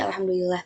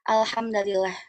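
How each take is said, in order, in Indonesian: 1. Huruf d berharakat u, huruf l berharakat i. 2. Huruf d berharakat a, huruf l berharakat i. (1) "ala dhammidal" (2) "dengan menasabkan eh, huruf dalnya"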